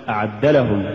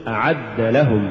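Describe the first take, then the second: First: أعد لهم hurried into one word; fuse أعد لهم, losing the word boundary; words run together. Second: أعد stressed as its own word, then لهم; separate words. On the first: Teacher shows the mistake, أعد لهم as one word. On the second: Teacher models correct recitation, أعد set apart from لهم. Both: Shown as a demonstration. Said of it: "ولا تقل".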